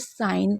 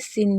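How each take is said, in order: First: The vowel sounds like 'eye'. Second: The vowel is a short 'i'. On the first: The speaker calls it right. "तो इसे साइन पढ़ेंगे" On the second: The speaker calls it wrong. "सिन नहीं पढ़ेंगे"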